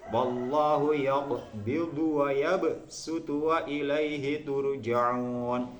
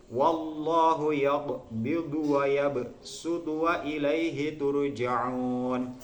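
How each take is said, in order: The two takes are said the same way.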